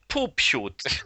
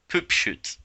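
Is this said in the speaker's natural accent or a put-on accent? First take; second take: put-on; natural. First: It is said in a put-on nice accent. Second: It is said in the speaker's ordinary accent.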